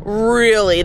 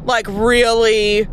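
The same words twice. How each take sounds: First: Short blunt really, falling; clipped sarcastic retort; flat sarcastic. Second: Drawn-out sceptical really; slow mocking disbelief; disbelieving. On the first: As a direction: drop it flatly, unimpressed. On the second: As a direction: stretch it slowly, doubting them. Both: Real, not acted. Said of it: "That thought has never crossed your head?".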